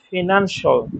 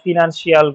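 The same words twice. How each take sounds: First: The ending is a short 'shul' sound. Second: The ending is a drawn-out 'shee-al' sound. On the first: The speaker calls it right. "এগুলোর উচ্চারণ হবে শল" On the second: The speaker calls it wrong. "এটা খুব common mistake"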